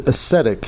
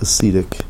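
First: "ascetic" said uh-SET-ic; short E ascetic. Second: "ascetic" said uh-SEE-tic; long E ascetic. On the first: Host correcting the word, "ascetic" as uh-SET-ic. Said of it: "a soft E". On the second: Host showing the mistaken way, "ascetic" as uh-SEE-tic. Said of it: "Not ascetic". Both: Shown as a demonstration.

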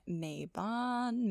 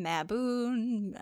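First: Mabon tried as "MAY-bahn"; unsure pronunciation. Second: Mabon tried as "ma-BOON"; unsure pronunciation. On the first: Unsure reader sounding out a festival name, Mabon as "MAY-bahn". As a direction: say Mabon with a long "ay", ending in "bahn". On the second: Unsure reader trying another way of saying it, Mabon as "ma-BOON". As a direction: say Mabon with a short "a", ending in "boon". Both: Shown as a demonstration. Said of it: "I don't know how to say them".

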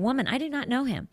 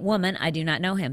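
First: Higher, faster, flustered Peter denying; indignant denial. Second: Said in the usual way. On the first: Shown as a demonstration. Preacher rereading Peter's denial, indignant and quicker. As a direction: Peter brushing off the servant girl, sharper. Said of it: "But let's see if he does". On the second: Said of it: "looked intently at him and said".

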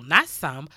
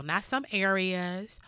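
First: "not some" said louder and lower, with "not" punched; stress on some. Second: "not some areas" drawn out slowly, rising on "some"; slow emphasis. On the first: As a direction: hit "not" hard, as a firm correction. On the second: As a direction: linger on "some" as you make the point. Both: Shown as a demonstration. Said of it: "That means all".

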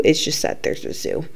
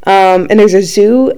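First: Muttered under the breath, almost voiceless; whispered aside. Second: Said in the usual way. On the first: Real, not acted. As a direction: drop to a whisper for the punchline. Whispered aside after zoo remark.

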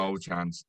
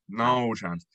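First: Said in the usual way. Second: "No" hit firmly, falling at the end; emphatic refusal. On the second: Real, not acted. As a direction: stamp down hard on "No". Repeated refusal, second take.

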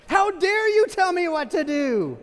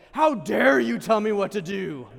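First: Much higher, much louder, slow indignant yell; mock outrage. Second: Louder, slow mock outrage; indignant. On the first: Believer yelling at the priest, full mock outrage. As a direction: explode at being told to confess. Acting outrage at confession advice. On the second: Patient snapping at the doctor, slow hammed-up outrage. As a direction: bristle at the dentist's advice. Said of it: "How many of you are like".

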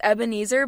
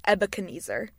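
First: Said in the usual way. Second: Ebenezer with an extra "kuh", as Eb-eh-kuh-NEE-zer; mispronounced name. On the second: Shown as a demonstration. Player confesses her first thought, Ebenezer garbled as Ebekeneezer. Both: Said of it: "my first thought was Ebenezer".

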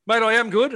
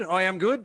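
First: Higher and louder, proclaiming it; mate, I am good, belted out; emphatic loud answer. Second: Said in the usual way. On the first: Real, not acted. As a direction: boom it out like a cheer. Answering how are you, emphatic.

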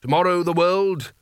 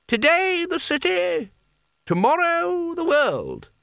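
First: Higher, declamatory repeat of a slogan; modestly raised orator's voice; Carding's rallying echo. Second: Very high, drawn-out cry; high, slow rallying call; voice from the crowd. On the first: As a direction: take up the crowd's cry with some grandeur. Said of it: "Carding nodded". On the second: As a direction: stretch it out high like someone calling from the back of a crowd. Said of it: "said someone at the back of the crowd". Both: A narrator's reading.

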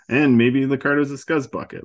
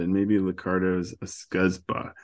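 First: Louder, punchier repeat of scuzzbucket; emphatic restated insult. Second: Said in the usual way. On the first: Shown as a demonstration. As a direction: hit it harder the second time.

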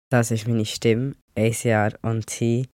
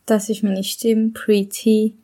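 First: Said in the usual way. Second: Higher, lighter voice from before hormone therapy; the old pre-T voice, clearly higher; pre-testosterone voice. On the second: Shown as a demonstration. Speaker plays their voice from before testosterone, higher. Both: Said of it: "so kann ich früher getönt".

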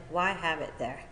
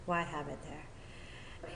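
First: Said in the usual way. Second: Slow, soft repeat; quiet reflection. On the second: Real, not acted. Speaker pondering booze in the fridge, quietly reflective. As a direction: let the question sink in, hushed. Question repeated slowly for effect.

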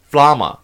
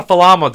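First: Flama with f and l run together; corrected pronunciation. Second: Falama with an extra vowel between f and l; corrected mispronunciation. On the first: Daughter corrects Dad's word, flama with f-l joined. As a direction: say flama in two syllables, fla-ma. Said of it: "It's not a falama, Dad. It's flama". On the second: Daughter quotes Dad's mistake to correct him, falama in three syllables. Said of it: "It's not a falama, Dad". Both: Retold or imitated.

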